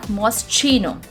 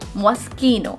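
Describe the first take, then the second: First: The middle consonant is a ch sound. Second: The middle consonant is a k sound. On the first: The speaker calls it wrong. "The sound of C H in this word is not pronounced as Ch. It's not Moschino" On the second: The speaker calls it right. "The sound of C H becomes K"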